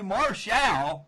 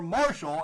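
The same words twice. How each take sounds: First: The name is said in an unusual way. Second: The name is said the ordinary way.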